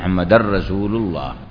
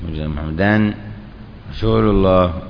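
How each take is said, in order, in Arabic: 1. يُدغم صوت النون في الراء من غير غنة. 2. يُنطق صوت النون بوضوح قبل الراء. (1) "فهو إدغام من غير غنة" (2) "افصل بين الكلمتين واظهر"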